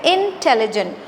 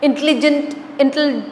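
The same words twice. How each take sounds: First: "इंटेलिजेंट" with every syllable clear, in-tel-li-jent, falling at the end; correct pronunciation. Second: "इंटेलिजेंट" squashed to in-tli-jent, then broken off; run-together mispronunciation. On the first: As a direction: sound the full "tel" inside "इंटेलिजेंट". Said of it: "correct pronunciation क्या है". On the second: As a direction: rush "इंटेलिजेंट", dropping its middle vowel. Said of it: "फिर भी अलग-अलग हो जाता है". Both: Shown as a demonstration.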